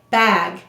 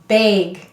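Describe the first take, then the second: First: The word is said in a standard accent. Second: The word is said in a Minnesota accent. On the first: "We don't actually say bag" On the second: "in Minnesota we say bag"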